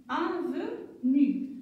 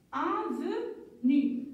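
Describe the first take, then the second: First: "Avenue" said again slowly; slow repeat. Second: "avenue" drawn out slowly, syllables held; slow reading. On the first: Teacher repeats "Avenue" slowly for pupils. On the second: Teacher rereads "avenue" slowly with the class. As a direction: read "avenue" slowly for pupils. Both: Shown as a demonstration. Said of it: "on va les lire encore une fois".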